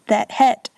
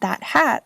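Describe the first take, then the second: First: The vowel in hat sounds close to het. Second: The vowel in hat is said the standard way.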